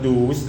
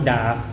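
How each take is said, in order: First: It is said with an oo vowel, doos. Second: It is said with an ah vowel, daas. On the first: "หรือไม่อ่านว่าดูส" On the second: "หรือว่าดาสนะฮะ"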